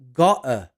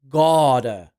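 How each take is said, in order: First: It is said with a British accent. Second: It is said with a mixed accent. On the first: "the British would say gotta" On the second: "half American, half British"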